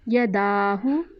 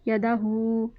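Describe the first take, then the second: First: The final 'hu' sound is kept short. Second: The final 'hu' sound is drawn out long.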